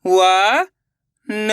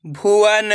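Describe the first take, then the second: First: भुवन in slow, separate syllables. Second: Said in the usual way. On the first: Shown as a demonstration. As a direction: sound out भुवन, pausing between syllables. (भुवन को एक-एक अक्षर अलग करके) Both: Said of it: "एक अक्षर का उच्चारण करके".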